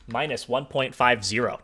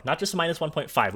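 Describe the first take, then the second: First: Zero spelled out slowly and deliberately at the end; stress on zero. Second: Said in the usual way. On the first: Shown as a demonstration. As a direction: lean on the final zero, slowly. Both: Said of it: "We had to use an extra significant figure here".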